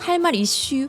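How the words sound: It is said in Chungcheong dialect pronunciation. "충청도 버전으로 하면"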